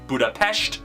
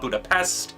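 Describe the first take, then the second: First: The city name has its native pronunciation. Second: The city name has an anglicized pronunciation. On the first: This is how the city itself is really called. The speaker calls it right. "that's how you actually pronounce the city" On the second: This is how people in the film said it. The speaker calls it wrong.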